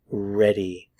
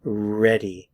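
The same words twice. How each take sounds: The two takes are said the same way.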